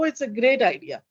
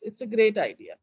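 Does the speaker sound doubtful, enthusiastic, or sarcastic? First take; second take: enthusiastic; doubtful. First: The tone sounds warm and genuinely positive. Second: The tone sounds mildly positive but hesitant. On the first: The idea is truly liked. "Positive. ... I'm in agreement with someone. Absolutely" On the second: The idea is accepted with some doubt. "Still positive, but was I as positive as before? Yeah, a bit doubtful"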